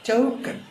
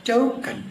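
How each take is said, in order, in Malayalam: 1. ഇത് ഇംഗ്ലീഷ് രീതി അനുകരിച്ചാണ് പറയുന്നത്. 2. ഇത് ഇംഗ്ലീഷ് രീതി അനുകരിച്ചാണ് പറയുന്നത്.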